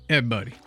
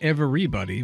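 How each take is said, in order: First: The word is clipped to two syllables. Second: All syllables of the word are pronounced. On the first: "It's just Ev and then, a, a, you know, an apostrophe, buddy" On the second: "Not everybody"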